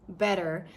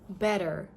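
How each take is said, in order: No difference in how they are said.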